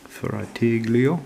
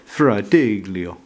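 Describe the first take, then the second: First: Fratiglio drawn out slowly, rising into a question; unsure pronunciation. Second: Said in the usual way. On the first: Real, not acted. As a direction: sound out Fratiglio slowly, checking if it's right. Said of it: "Is that how, is, I'm pronouncing it right".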